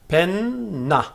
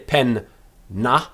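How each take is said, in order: First: The two syllables run together without a break. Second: There is a break between the two syllables. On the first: The speaker calls it right. "we don't actually have to break the word up" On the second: The speaker calls it wrong. "We don't say pen na with a break between them"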